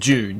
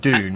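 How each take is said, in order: First: The word starts with a J sound. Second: The word starts with a D sound. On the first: "I say June because that's how they pronounced it in the old uh, movie" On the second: "everyone says Dune a little differently"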